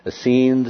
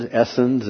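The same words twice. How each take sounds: First: "Essenes" as uh-SEENZ, stress on the second syllable. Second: "Essenes" as ESS-enz, stress on the first syllable. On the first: Lecturer showing listeners one pronunciation, "Essenes" stressed on the end. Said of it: "you will hear it pronounced". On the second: Lecturer showing listeners the other pronunciation, "Essenes" stressed up front. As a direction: say "Essenes" with a short, weak second syllable. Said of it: "with the emphasis on other syllables". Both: Shown as a demonstration.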